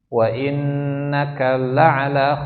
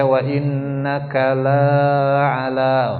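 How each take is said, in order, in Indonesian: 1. Vokal pada 'la' dibaca pendek. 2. Vokal pada 'la' dibaca panjang.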